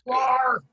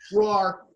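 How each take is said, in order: First: It is a big, loud roar. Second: It is a weak, unconvincing roar.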